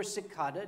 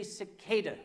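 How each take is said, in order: First: "cicada" with a broad AH, si-KAH-da; alternative pronunciation. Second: "cicada" with a long AY, si-KAY-da; first pronunciation. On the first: Storyteller offering the other dialect's version, "cicada" as si-KAH-da. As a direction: say "cicada" with the middle like "car" without the r. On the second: Storyteller offering one dialect's version, "cicada" as si-KAY-da. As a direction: say "cicada" with the middle rhyming with "day". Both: Shown as a demonstration. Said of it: "depending on your, your, your dialect".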